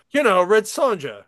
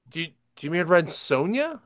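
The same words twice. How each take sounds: First: "Sonja" said SAHN-ja with a hard j, as in jam; imitating the customer saying "Sonja" with a j sound, raised and loud; customer's mispronunciation. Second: "Sonja" said SOHN-ya with a y sound; gently correcting, "Sonja" pronounced SOHN-ya; correct pronunciation. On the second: Retold or imitated.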